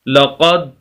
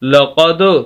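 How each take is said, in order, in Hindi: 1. आखिरी d बिना गूंज के सपाट रुक जाती है। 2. आखिरी d गूंज वाली उछाल के साथ छोड़ी जाती है। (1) "अगर हम कलकला ना करें तो हम पढ़ेंगे" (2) "कलकला करेंगे"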